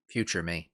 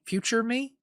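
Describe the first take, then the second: First: "Future me" low and falling, stating it flatly; "Future me" settled with a low, soft falling tune; flat correction. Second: "future me?" asked with a high questioning rise; "future me?" as an unsure question, pitch climbing at the end. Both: Real, not acted. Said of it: "Future me, duh".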